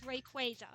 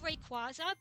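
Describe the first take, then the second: First: The name is said in its official pronunciation. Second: The name is said in a familiar, unofficial pronunciation. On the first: This is the officially sanctioned pronunciation. The speaker calls it right. "officially it's Rayquaza" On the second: This is the habitual pronunciation from childhood. The speaker calls it wrong. "that's the way I grew up pronouncing it"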